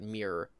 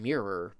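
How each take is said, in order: First: "mirror" squeezed into one syllable, like "meer"; odd regional pronunciation. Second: Said in the usual way. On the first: Shown as a demonstration. Showing how a friend said it oddly, regional "mirror" as "meer". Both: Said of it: "he said it oddly".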